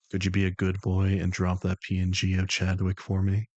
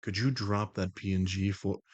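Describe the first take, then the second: First: Low, deliberate request, firmly projected; controlled persona voice with more push and a questioning lift; The Voice, improved take. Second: Low, even request in a put-on voice; composed, matter-of-fact request in a low voice; The Voice, first attempt. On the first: Acted. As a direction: coax like someone in charge, rising at the end. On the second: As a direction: ask it levelly in the controlled persona. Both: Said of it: "let me say that better".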